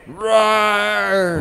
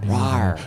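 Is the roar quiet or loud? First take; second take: loud; quiet. First: The roar is said loudly. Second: The roar is said quietly.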